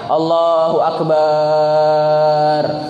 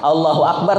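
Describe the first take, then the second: First: The vowel after b is drawn out long. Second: The vowel after b is kept short. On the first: The speaker calls it wrong. "Atau memanjangkan baknya" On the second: The speaker calls it right. "sudah paling bujur"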